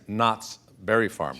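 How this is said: A short pause follows the first word. The speaker calls it right. "See that little pause?"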